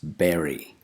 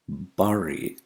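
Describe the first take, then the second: First: The first vowel is a short 'e' sound. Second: The first vowel is an 'ah'-like sound. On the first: The speaker calls it right. "The first vowel sound is not ah, it's e" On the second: The speaker calls it wrong. "Bury is wrong"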